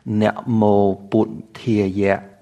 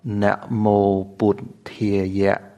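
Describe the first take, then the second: First: It is said in the Khmer Pali pronunciation. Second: The same.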